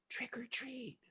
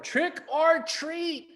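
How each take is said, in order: First: It is said very softly. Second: It is said a little louder.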